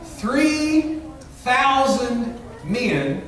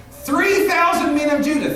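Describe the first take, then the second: First: Three and thousand drawn out very slowly; slow each word right down, letting three thousand sink in; stretched-out emphasis. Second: Said in the usual way. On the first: Shown as a demonstration. Preacher stressing the huge number to his congregation, slowly drawn out. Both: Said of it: "Isn't it interesting?".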